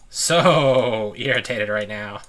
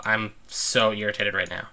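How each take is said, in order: First: Slow, drawn-out with a laugh; real amused irritation; laughing exasperation. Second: Said in the usual way. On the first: Real, not acted. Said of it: "slowed, laughing repeat".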